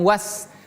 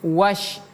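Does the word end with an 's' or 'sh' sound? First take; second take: s; sh. First: The word ends with a plain s sound. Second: The word ends with a sh sound. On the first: The speaker calls it wrong. "bukan was" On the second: The speaker calls it right. "tapi wash"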